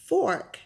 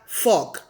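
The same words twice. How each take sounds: First: The R sound is clearly pronounced. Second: The R sound is dropped. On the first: The speaker calls it right. "There's an R. You have to pronounce the R" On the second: The speaker calls it wrong. "not fork"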